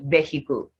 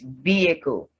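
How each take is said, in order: First: The h is pronounced. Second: The h is silent. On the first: The speaker calls it wrong. "the word is not vehicle" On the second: The speaker calls it right. "The H is silent in these words"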